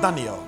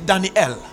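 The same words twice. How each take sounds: First: The final syllable is reduced and unclear. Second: The final syllable is clearly said as 'el'. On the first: The speaker calls it wrong. "it is not pronounced Daniel" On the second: The speaker calls it right. "Because there is a God in there, E-L"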